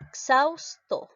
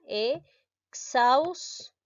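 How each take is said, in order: First: Exhausto slow and higher, with the x sound clear; careful pronunciation demo. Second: Exhausto stretched out very slowly, syllable by syllable; syllabified pronunciation. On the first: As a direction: say exhausto slowly so the x is heard. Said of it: "¿Cómo sería?". ("Exhausto" pronunciado despacio y marcado) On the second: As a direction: draw exhausto out so each syllable is heard. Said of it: "de esta manera". ("Exhausto" estirado, sílaba por sílaba) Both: Shown as a demonstration.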